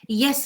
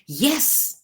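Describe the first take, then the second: First: Yes is said plainly, without extra force. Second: Yes is said with strong, exclamatory force.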